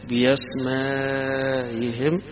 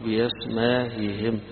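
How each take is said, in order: First: The vowel before the hamza is held long. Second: The vowel before the hamza is kept short. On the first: "المد الطويل" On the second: "القصر"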